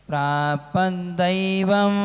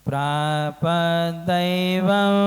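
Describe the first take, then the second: The two takes are said the same way.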